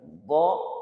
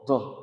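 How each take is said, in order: First: The sound is plain with no puff of air. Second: The sound comes with an audible puff of air. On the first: The speaker calls it right. "Jadi dia tidak boleh ada anginnya" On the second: The speaker calls it wrong. "Jangan do, do, do, jangan begitu ya"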